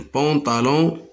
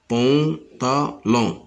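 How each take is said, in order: First: Said in the usual way. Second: "pantalon" slowly split into pan, ta, lon; slow teacher's dictation of "pantalon", pause after each syllable. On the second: Shown as a demonstration. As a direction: break "pantalon" into three separate syllables.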